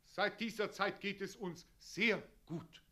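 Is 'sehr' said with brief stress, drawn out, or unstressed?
brief stress. The word 'sehr' is stressed but kept short. The speaker calls it right. "Sehr gut"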